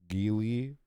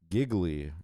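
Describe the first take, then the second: First: The name sounds like jeely, without giggle. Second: The name sounds like the word giggly.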